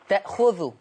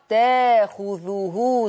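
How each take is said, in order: First: A glottal stop is heard after the first syllable. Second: A long vowel replaces the glottal stop there. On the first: The speaker calls it wrong. "خلي بالك الهمزة دي مش ساكنة" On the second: The speaker calls it right. "طول ما الهمزة الساكنة دي قبلها تاء مفتوحة يقرأ تاخذه"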